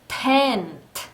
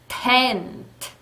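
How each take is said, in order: The two takes are said the same way.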